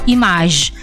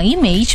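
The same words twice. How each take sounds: First: It is said with French vowels, open a sound. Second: It is said with English vowels. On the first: "maka dalam bahasa Prancis kita bilang image" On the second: "Kalau dalam bahasa Inggris kita bilang image"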